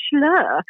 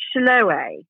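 First: "Schlur" as one syllable, rhyming with fur; higher, say "Schlur" as shlur, no "-ay"; corrected pronunciation. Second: "Schloe" in two syllables, ending in "-ay"; mispronounced drink name. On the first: Quoting people who put her right on the drink, corrected pronunciation. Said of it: "I get six thousand people going". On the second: Telling a story against herself about a fizzy drink, mispronounced. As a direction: say "Schloe" like shloh-AY, drawn out. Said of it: "I sometimes just mispronounce things really badly". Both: Retold or imitated.

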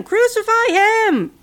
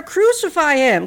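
First: Much higher, louder, slow shout; shouting louder still. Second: Louder, slow, higher shout. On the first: Mob's chant peaking at Pilate, high slow shout. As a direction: peak the chant, stretching it out. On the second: Mob shouting at Pilate, slow loud chant. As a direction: hammer the words at Pilate. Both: A narrator's reading. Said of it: "They shouted louder".

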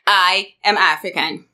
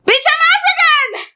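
First: Said in the usual way. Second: Indignant shout. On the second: Retold or imitated. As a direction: hurl it back at her. Snapping back at a rude question.

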